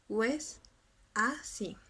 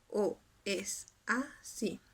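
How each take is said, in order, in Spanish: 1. Dos vocales se unen, así que son tres sílabas. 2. Las vocales se mantienen separadas, así que son cuatro sílabas. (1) "nos va a resultar con tres" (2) "Lo normal serían cuatro sílabas"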